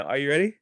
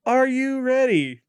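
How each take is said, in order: First: Said in the usual way. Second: High, drawn-out "are you ready"; hammed-up announcer call. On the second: Host hypes up his co-host for the game, hammed-up announcer call. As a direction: stretch it out like a game-show host.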